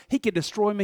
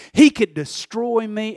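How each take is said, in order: First: Softer, matter-of-fact; the restrained version; toned-down take. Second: Slow, stressed on HE; the over-the-top version; dramatic take. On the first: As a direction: pull it back and say it quietly. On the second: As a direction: lean hard on he. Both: Shown as a demonstration. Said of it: "let's not go that far with this".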